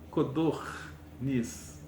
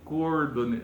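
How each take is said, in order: First: The r sound comes after the d. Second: The r sound comes before the d. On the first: The speaker calls it right. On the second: The speaker calls it wrong.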